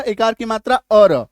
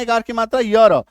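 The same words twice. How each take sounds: First: 'अ र' sounded slowly with a bare schwa, "a-ra"; 'अ र' ending. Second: 'य र' sounded with a y-glide, "ya-ra"; 'य र' ending. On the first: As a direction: spell out अ र, no y-glide. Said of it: "तो उसमें क्या था?". (अ वाला उच्चारण, 'अ र') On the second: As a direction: spell out the sound य र with a clear y. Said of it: "इसमें क्या उच्चारण है?". (य वाला उच्चारण, 'य र') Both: Shown as a demonstration.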